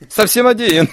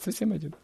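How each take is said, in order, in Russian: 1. Сказано радостным, с облегчением в голосе. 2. Сказано грустным, скорбящим тоном.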